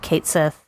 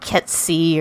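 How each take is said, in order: First: It is said as two words, 'Kate Sith'. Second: It is said as one blended word, 'Ketsi'. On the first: The speaker calls it wrong. "I know that's not how you say it" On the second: The speaker calls it right. "the Irish actual pronunciation"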